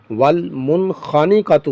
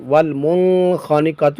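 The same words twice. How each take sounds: First: والمنخنقۃ with the noon sounded clearly before خ; clear noon, izhar. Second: والمنخنقۃ with the noon blurred into خ; wrong reading. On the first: Teacher shows students the correct izhar reading clearly. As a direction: say والمنخنقۃ pronouncing noon fully, no nasal hiding. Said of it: "والمنخنقۃ پڑھیں گے". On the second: Teacher shows students the reading to avoid. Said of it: "والمنخنقۃ نہیں پڑھیں گے". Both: Shown as a demonstration.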